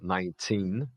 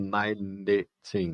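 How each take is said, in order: First: The n goes straight into the t. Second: An extra vowel is sounded between n and t. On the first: The speaker calls it right. "esse E está mudo... pulo do N para o T" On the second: The speaker calls it wrong. "Eu não digo nineteen"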